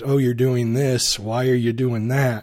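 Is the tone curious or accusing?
accusing. It sounds judgmental and accusing.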